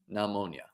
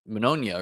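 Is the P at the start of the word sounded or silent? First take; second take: silent; sounded. First: The word starts with a silent P. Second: The word starts with a sounded P. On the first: The speaker calls it right. "Yeah, there we go" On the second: The speaker calls it wrong. "Not saying that word right"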